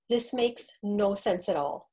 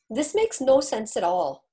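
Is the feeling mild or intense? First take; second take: mild; intense. First: It is said with milder feeling. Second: It is said with much stronger feeling.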